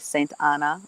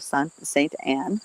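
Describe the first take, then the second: First: The name ends with a final vowel sound. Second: The name ends without a final vowel sound.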